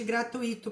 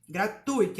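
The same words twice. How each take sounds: First: Gratuito split gra-tu-Í-to, the wrong way; mock the wrong gratuito, softer; wrong pronunciation. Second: Gratuito with the stress on TU, ui as one glide; correct pronunciation. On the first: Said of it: "Nada de gratuito por aí". (pronúncia errada, gra-tu-Í-to) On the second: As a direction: say Gratuito as gra-TUI-to. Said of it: "a pronúncia é gratuito". (pronúncia correta, gra-TUI-to) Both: Shown as a demonstration.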